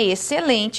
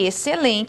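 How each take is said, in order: First: The x and c merge into one sound. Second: The x and c merge into one sound.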